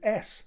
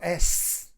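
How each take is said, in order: First: The S sound is soft and natural. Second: The S sound is sharp and exaggeratedly hissy. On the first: This is how the world really sounds. The speaker calls it right. "when I say S, it's an S" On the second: This is what boosted treble adds. The speaker calls it wrong. "It's not S. And that's what you're adding on"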